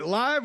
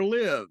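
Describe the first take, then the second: First: The vowel sounds like the one in 'five'. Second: The vowel sounds like the one in 'give'. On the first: The event is happening now. "It's li-" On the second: The thing is alive and living there. "or is it living in the app right now?"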